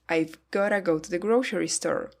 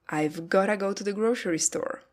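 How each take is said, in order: First: It is reduced to 've gotta. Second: It is reduced to 've gotta.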